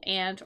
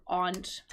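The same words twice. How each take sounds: First: Aunt with a short A, like "ant"; first variant pronunciation. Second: Aunt with an open AH vowel; second variant pronunciation. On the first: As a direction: say aunt to rhyme with "pant". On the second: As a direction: say aunt like "ahnt". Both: Shown as a demonstration. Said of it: "Both of those pronunciations are acceptable".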